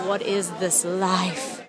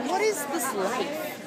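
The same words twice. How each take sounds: First: Low, flat. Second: High and slow, lifting the end; high, wondering. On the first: To herself after meeting the actor, low deadpan repeat. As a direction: lower and slow, flat disbelief. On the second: To herself after meeting the actor, high awed question. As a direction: ask it up high, drawn out in awe. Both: Shown as a demonstration. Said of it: "said twice, differently".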